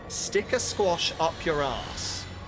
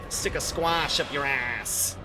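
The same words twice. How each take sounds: First: It is said in a British accent. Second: It is said in an American accent. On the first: "This rhymes in British" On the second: "rhymes more if you say it in American"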